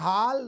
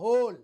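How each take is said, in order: First: The vowel is an open aa sound. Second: The vowel is a closed o sound. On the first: "न हाल" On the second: "न होल"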